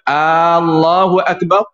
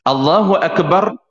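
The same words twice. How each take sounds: First: The opening vowel is drawn out long. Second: The opening vowel is short. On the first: It asks whether God is great, implying denial. The speaker calls it wrong. "Kalau kita panjangkan hamzah" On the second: God is the greatest. The speaker calls it right. "makna dianya ataupun terjemahan dia, Allah Maha Besar"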